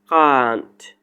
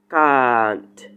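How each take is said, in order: First: It is said in a British accent. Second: It is said in a British accent.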